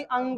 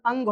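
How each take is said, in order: First: "अंग" as nasal anga, no puff of h; correct unaspirated ending. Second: "अंग" with a gh ending, like angha; common aspirated variant. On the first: Teacher citing the letter's proper name, "अंग" without aspiration. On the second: Teacher quoting what many people say, "अंग" wrongly aspirated. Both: Shown as a demonstration. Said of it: "अंग भी बोलते हुए सुनता होगा".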